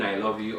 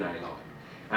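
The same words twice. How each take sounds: First: Said in the usual way. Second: Plain. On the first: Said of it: "The tone you use is very different". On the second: Shown as a demonstration. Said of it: "whether you really mean".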